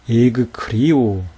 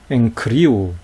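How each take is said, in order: First: The gamma is pronounced as a hard g. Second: The gamma is pronounced as an ng sound. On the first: The speaker calls it wrong. "그렇지 않다는 거예요" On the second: The speaker calls it right. "이렇게 발음했다는 거예요"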